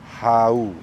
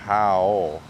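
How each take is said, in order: First: The syllable is said unlike the English word 'how'. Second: The syllable is said like the English word 'how'. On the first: The speaker calls it right. "It's how" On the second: The speaker calls it wrong. "not how"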